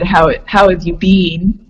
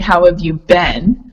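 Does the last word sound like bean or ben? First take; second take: bean; ben. First: The last word rhymes with seen. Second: The last word rhymes with ten. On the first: "then you do B E E N" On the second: "you would say B E N"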